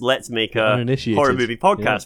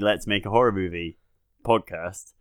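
First: The phrase breaks after the words 'Make a'. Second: The phrase breaks before the word 'Podcast'. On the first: It is about making a podcast on horror movies. "which would essentially be a podcast about trying to make another podcast about horror movies" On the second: It is a podcast about making a horror movie. "I always intended it to be"

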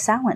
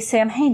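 First: The word is pronounced differently from its spelling. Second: The word is pronounced the way it is spelled. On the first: The speaker calls it right. "actually, it's Samhain" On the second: The speaker calls it wrong. "don't shame people if they say Samhain"

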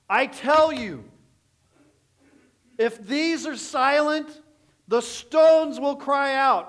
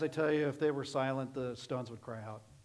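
First: It is said loudly and forcefully. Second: It is said softly and casually. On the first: The speaker calls it right. "shout at the top of your lungs that the whole earth hears" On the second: The speaker calls it wrong. "He did not say it like this"

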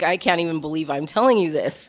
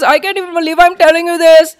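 First: It is said in the speaker's ordinary voice. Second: It is said in an imitated, put-on voice.

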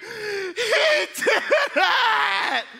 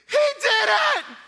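First: It is said in a weary, exhausted way. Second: It is said loudly and excitedly.

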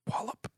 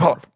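First: The word is said at normal speed. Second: The word is said very fast.

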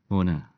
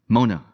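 First: It sounds gentle and friendly. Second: It sounds angry and confrontational.

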